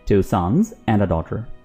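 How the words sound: The words are spoken with short pauses between them. The speaker calls it right. "Pause लेकर बोलिए"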